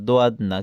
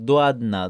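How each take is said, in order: No difference in how they are said.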